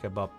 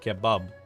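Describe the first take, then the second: First: The word is pronounced with a P sound. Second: The word is pronounced with a B sound. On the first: "Not kebab" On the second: "I say it with a B though"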